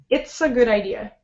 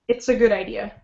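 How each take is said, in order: No difference in how they are said.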